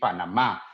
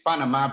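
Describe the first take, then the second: First: The stress falls on the last syllable. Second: The stress falls before the last syllable. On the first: This is the Spanish way of saying it. "it has an accent at the end in the, in the last A" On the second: This is the English way of saying it. "in English it's Panama"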